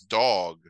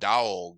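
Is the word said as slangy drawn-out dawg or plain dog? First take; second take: plain dog; dawg. First: The word is said as a plain, ordinary dog. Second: The word is drawn out, slangy dawg. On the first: It sounds like the ordinary animal word. "he says dog" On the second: The slang word for a buddy is intended. "he doesn't say dog"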